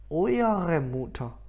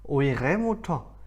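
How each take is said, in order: First: The first word has three syllables, keeping the middle vowel. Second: The first word has two syllables, dropping the middle vowel. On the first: The speaker calls it wrong. "오이어레 발음이 너무 이상해지는 거예요" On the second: The speaker calls it right. "가운데 있는 이를 빼고 오이레 무터 이게 더 편하지"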